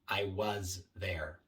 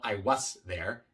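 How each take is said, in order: First: Was ends in a buzzing voiced z sound. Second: Was ends in a hissing voiceless s sound. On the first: The speaker calls it right. "sino I was there" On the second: The speaker calls it wrong. "No I was there"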